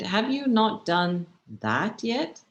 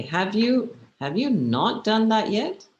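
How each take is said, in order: First: Slow build to THAT, set apart and rising; linger, then pick out THAT as if it were so simple; incredulous weight on THAT, drawn-out question; stress on THAT. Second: NOT hit louder, with impatient rising question; higher, louder, NOT emphasized; stress on NOT. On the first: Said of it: "Like, it's so simple". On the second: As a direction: punch NOT as if they are so slow. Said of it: "Which means you're so slow". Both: Shown as a demonstration.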